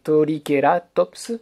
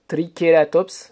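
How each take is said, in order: First: It is said with a vowel inserted after T. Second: It is said with a plain French TR cluster.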